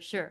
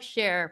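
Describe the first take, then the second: First: The name is said like the word sure. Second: The name is said like the word share. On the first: The speaker calls it right. "but you know, sure" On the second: The speaker calls it wrong. "So not like share"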